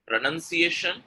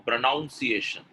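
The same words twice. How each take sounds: First: PRONUNCIATION with "nun" in the second syllable; correct pronunciation. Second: PRONUNCIATION with "noun" in the second syllable; wrong pronunciation. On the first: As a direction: say PRONUNCIATION as "pro-nun-see-AY-shun". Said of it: "is the correct pronunciation". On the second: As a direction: say PRONUNCIATION as "pro-NOUN-see-ay-shun". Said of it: "pronunciation is wrong". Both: Shown as a demonstration.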